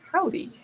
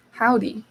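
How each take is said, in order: First: Howdy pitched way up and softer, falling; a high, tentative Howdy in a British accent; trying out howdy. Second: Said in the usual way. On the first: Shown as a demonstration. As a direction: squeak out Howdy and let it drop. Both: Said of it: "howdy sounds very strange in a British accent".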